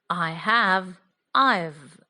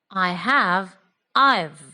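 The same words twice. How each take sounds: Both takes have the same delivery.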